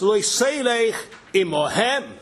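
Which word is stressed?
imohem. The stress is on the word imohem.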